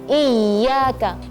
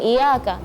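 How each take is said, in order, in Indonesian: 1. Bunyi y-nya ditahan dan ganda. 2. Bunyi y-nya pendek dan tunggal. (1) "tapi Iyyaka, perhatikan tasydidnya" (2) "bukan Iyyaka"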